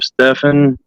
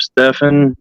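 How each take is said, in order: First: The middle consonant is an f sound. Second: The middle consonant is an f sound.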